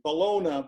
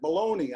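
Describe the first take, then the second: First: The word ends with a 'nya' sound. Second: The word ends with an 'ee' sound. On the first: This is how someone else says it. "I don't pronounce it Bologna" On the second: This is the speaker's own way of saying it. "I pronounce that baloney"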